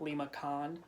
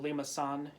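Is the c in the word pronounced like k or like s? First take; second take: k; s. First: The c is pronounced like a k sound. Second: The c is pronounced like an s sound. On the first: The speaker calls it wrong. "and not" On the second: The speaker calls it right. "this little accent mark means it's a soft C"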